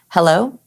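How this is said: It is said relaxed on the out breath.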